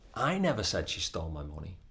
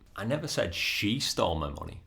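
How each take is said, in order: First: The stress falls on the word I. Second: The stress falls on the word she. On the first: Someone else said it, not the speaker. "as in somebody else might have said it, but it wasn't me" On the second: Someone other than her stole the money. "I just said somebody stole my money or somebody else stole my money"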